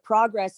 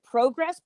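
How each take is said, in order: First: It is said with an American vowel. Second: It is said with a British vowel. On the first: "pronouncing it as an American" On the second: "am I gonna have to pronounce it Progress?"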